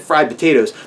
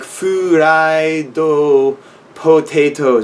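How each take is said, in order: First: It is said with ordinary English sounds. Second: It is said with Japanese loanword sounds. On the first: Japanese listeners will not understand it. The speaker calls it wrong. "if you say fried potatoes, they're not going to know what you mean" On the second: Japanese listeners will understand it. The speaker calls it right. "I could read the katakana and it's you know pronounced that way"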